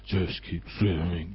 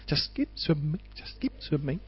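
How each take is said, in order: First: It sounds weary and reluctant. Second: It sounds light and cheerful. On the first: Pushing on is a grim burden. The speaker calls it wrong. "it's not like" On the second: Pushing on is done with joy. The speaker calls it right. "light-footed kind of way"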